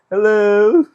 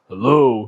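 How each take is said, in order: First: The voice is light and not masculine. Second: The voice is deep and masculine. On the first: This is the voice actually heard. "And all I hear is" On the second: This is the voice that was expected. "I was expecting the most masculine voice"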